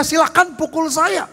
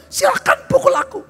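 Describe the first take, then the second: First: Passive, limp offer to the devil; mock-meek surrender, lightly raised; meek invitation to be hit. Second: A preacher hurling a challenge at Satan; defiant shout. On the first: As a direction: hand yourself over meekly, no fight. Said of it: "jangan dia". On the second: Pretend. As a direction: dare the devil to hit you. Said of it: "jangan saudara diam".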